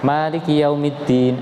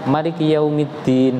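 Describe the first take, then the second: First: The vowel after the first m is long. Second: The vowel after the first m is short. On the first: "membaca panjang mimnya" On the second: "itu mimnya tidak dibaca panjang"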